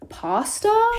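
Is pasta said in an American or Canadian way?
American. It is said with an American pronunciation. This is how the other group says it. "instead of"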